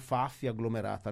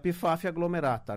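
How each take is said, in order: First: The initial P is silent, starting with F. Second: The initial P is pronounced before the F.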